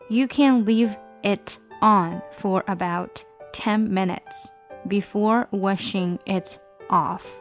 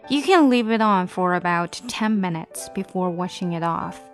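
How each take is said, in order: First: The sentence is read slowly. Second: The sentence is read at normal speed.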